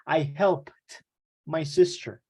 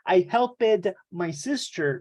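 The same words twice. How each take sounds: First: The ending is pronounced as a t sound. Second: The ending is pronounced as an extra syllable. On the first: The speaker calls it right. "we say" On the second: The speaker calls it wrong. "we don't say"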